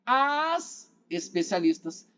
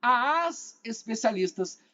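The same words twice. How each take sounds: First: Slow, leaning hard on "As"; stress on as. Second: Slow, pressing on "As"; stress on as. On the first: Retold or imitated. Teacher echoes a student's answer, stressing "As". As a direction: draw out "As" so the article is heard. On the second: Shown as a demonstration. Teacher repeats the student's reading, stressing "As". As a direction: give "As" its weight before especialistas. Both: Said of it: "Percebeu a entonação do Fábio?".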